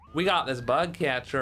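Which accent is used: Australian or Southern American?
Southern American. It is said in a Southern American accent.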